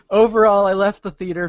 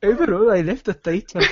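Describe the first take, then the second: First: It is read in the speaker's normal accent. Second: It is read in a put-on, Irish-sounding accent. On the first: "I'll just read it in my regular voice" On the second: "That's like Irish"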